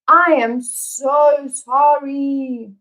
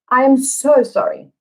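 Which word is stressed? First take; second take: I and so; so. First: Both I and so are stressed; am is reduced. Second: The word so carries the main stress. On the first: The apology is intensified and only the speaker apologizes. "the only word that's not stressed is the verb to be" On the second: The apology is intensified. "what meaning does the sentence have with the emphasis on so?"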